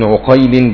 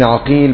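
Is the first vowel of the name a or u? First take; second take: u; a. First: The name begins with a u vowel. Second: The name begins with an a vowel. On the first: "بضمة" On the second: "بفتح أوله"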